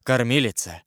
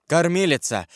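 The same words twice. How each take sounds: First: Said in the usual way. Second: Raised, higher-pitched call for the nurse; louder call. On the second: A narrator's reading. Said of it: "крикнул Карл громче". (позвать погромче)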